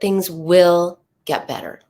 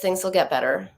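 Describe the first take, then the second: First: The tone is warm, gentle and soothing. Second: The tone is cold and not soothing. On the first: The speaker calls it right. "This is what soothing sounds like" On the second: The speaker calls it wrong. "Not comforting, not soothing, not helpful"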